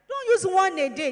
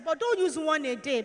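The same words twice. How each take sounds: First: "use" pushed out loud and firm, whole line louder; louder repeated warning. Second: Said in the usual way. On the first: Shown as a demonstration. Health teacher warning girls not to keep a pad all day, loud firm stress.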